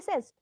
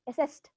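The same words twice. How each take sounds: First: The word ends with a d sound. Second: The word ends with a t sound. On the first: The speaker calls it wrong. "It's not assessed. ... The D sound doesn't come" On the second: The speaker calls it right. "It's the T at the end"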